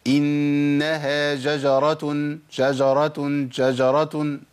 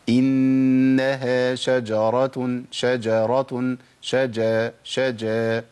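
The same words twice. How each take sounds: First: شجرة said "jajaratun", j replacing the sh; shin as jim. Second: شجرة recited slowly as "shajaratun", clear sh then j; correct shin. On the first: Teacher mimicking affected reciters, shin as jim in شجرة. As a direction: swap the sh of شجرة for a j, recited slowly. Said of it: "فيبدل الشين بجيم". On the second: Teacher modelling the right reading, clear shin in شجرة. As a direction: keep a true hushing sh before the j in شجرة. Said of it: "الصح إن أنا أقول". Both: Shown as a demonstration.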